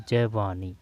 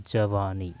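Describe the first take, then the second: No difference in how they are said.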